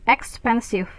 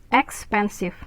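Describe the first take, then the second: The two takes are said the same way.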